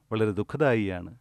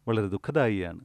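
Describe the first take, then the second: No difference in how they are said.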